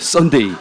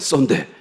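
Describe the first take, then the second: First: The name ends with a full final glide. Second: The name ends clipped without the final glide. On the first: The speaker calls it right. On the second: The speaker calls it wrong.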